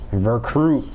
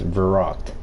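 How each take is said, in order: First: The name is said like the word recruit. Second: The name is said like 'ver-rookt'. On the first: The speaker calls it wrong. "Recruit is not a zombies map" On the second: The speaker calls it right. "It is Verrucht"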